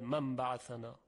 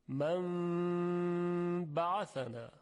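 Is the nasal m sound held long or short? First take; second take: short; long. First: The nasal m sound is short and passed quickly. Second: The nasal m sound is held for two counts. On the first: The speaker calls it wrong. "نمیگوید من بعثنا" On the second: The speaker calls it right. "قنه این حرف رو به اندازه دو حرکت نگه میداره"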